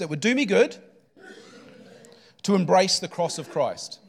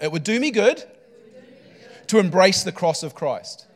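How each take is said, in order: First: It is said plainly, without extra conviction. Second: It is said forcefully, with strong conviction.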